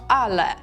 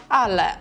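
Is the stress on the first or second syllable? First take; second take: first; first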